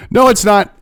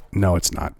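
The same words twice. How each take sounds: First: Said in the usual way. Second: Low, soft, deadpan "No, it's not"; flat denial. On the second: Real, not acted. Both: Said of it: "half of this bill truly is about".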